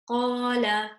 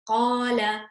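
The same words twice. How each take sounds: No difference in how they are said.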